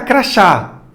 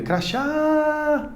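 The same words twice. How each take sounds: First: Said in the usual way. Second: "Crachá" with the final á held long and high, softly; last syllable stretched. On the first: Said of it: "se de repente eu fosse gritar". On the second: Shown as a demonstration. Teacher shows students which syllable stretches, "Crachá" with long high final á. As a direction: stretch out the end of "Crachá" on a high, quiet note. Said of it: "Qual sílaba você estenderia".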